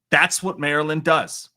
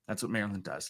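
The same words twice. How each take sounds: First: Loud, punchy declaration; mock proclamation. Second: Soft, low, offhand echo; quiet repeat. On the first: Streamer to viewers after news updates, loud mock proclamation. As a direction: announce it proudly like a slogan. Slogan declared, then quietly repeated. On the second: Real, not acted. Streamer echoing his own slogan, soft and low. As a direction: drop it right down, almost to yourself.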